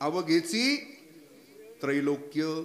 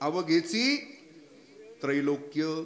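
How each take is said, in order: First: It is said as avaghechi trailokya. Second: The same.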